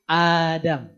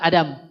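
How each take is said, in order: First: The first vowel is held long. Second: The first vowel is held short. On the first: The speaker calls it right. "Nabi Adam itu bacanya tuh A-nya dua harokat" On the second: The speaker calls it wrong. "bukan Adam"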